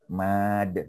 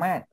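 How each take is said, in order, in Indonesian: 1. Vokalnya panjang. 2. Vokalnya pendek. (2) "Bukan mad"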